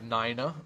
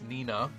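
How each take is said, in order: First: The name is said with an English pronunciation. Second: The name is said with a Japanese pronunciation. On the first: "I would pronounce it Nina" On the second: "because it's Japanese and the original uh, original name is not Nina, it's Nina"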